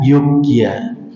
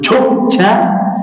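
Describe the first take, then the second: First: It starts with a light, soft y sound. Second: It starts with a heavy, thick j sound. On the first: "pengen ringan" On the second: "Pengen kandel muncul"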